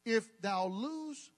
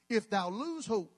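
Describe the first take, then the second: First: Slow, archaic scripture read; mock King James reading. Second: Slowish archaic reading; mock King James reading. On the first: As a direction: intone it like old scripture. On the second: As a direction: read it like the old Bible. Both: Shown as a demonstration. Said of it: "this is for those who need a thou and a thee".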